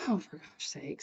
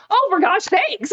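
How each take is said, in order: First: Very soft, low grumble; hushed exasperation to herself; dismayed aside. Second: High, loud, drawn-out exasperation; slow, high-pitched fed-up outburst; exasperated outburst. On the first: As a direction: say it under your breath, dismayed. Dismayed aside on seeing whole family. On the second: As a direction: cry out in comic exasperation. Exasperated at mother playing cards. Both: Retold or imitated.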